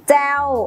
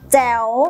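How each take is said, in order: First: The syllable has a falling tone. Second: The syllable has a rising tone. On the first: "มีรูปวรรณยุกต์โทมีเสียงวรรณยุกต์โท" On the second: "มีรูปวรรณยุกต์จัตวามีเสียงวรรณยุกต์จัตวา"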